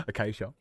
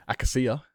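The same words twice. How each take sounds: First: Said in the usual way. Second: "Acacia" said as "ack-a-see-a", stress on first syllable; alternative pronunciation. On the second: Shown as a demonstration. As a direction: try the odd "Acacia" with a short a. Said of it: "maybe it's pronounced Acacia".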